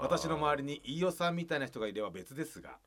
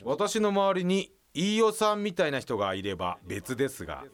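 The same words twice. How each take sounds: First: The line is read at a normal pace. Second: The line is read slowly, with echo.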